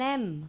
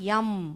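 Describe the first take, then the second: First: The letter name starts with a vowel sound. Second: The letter name starts with a y sound. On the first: The speaker calls it right. "I want an M" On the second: The speaker calls it wrong. "I don't want yum"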